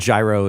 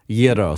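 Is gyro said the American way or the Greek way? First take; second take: American; Greek. First: The word is said with the American pronunciation. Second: The word is said with the Greek pronunciation. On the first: This is an adapted form of the word. "is just the Americanized" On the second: This is the original form of the word. "that would be the proper pronunciation"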